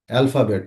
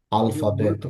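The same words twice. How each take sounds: First: Said in the usual way. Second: আলফাবেট with an open "al" and three even syllables; Portuguese pronunciation. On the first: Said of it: "আমরা বলি হচ্ছে ইংরেজিতে". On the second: Shown as a demonstration. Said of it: "পর্তুগিজে ... আমরা বলবো হচ্ছে".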